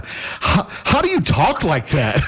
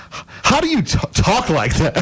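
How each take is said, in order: First: Slow, awed, slightly dopey question; halting, higher, mock-simple student voice; clueless student. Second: High-pitched, halting question; young student. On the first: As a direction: play your tongue-tied younger self, laughing at him. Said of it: "this is kinda where I was at at the time". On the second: Retold or imitated. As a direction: imitate a hesitant student, voice climbing high. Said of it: "there was this girl".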